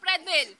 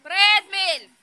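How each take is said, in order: First: Said in the usual way. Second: Louder repeated call. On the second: Real, not acted. Adult calling a child to the photo, louder call. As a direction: raise the voice to call again.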